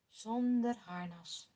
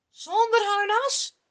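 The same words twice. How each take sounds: First: Low and slow, quietly certain; calm firm answer. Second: High, loud, disbelieving question; verbaasde vraag. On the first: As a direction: settle it calmly. David bevestigt kalm. (rustig en beslist, laag en langzaam) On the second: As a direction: shoot it up in disbelief. Saul verbaasd over plan. (verbaasd en luid: zonder harnas?) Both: Acted.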